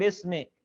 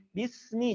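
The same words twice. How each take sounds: First: "bismi" opened to "besme"; mispronounced bismi. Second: "Bismi" with a pure i; correct bismi. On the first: Teacher shows the common mistake, wrong "bismi". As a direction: say "bismi" with e for each i. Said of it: "bukan bismi". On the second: Teacher models the basmalah opening, correct "Bismi". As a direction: say "Bismi" with clear i, never e. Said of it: "jangan bismil". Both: Shown as a demonstration.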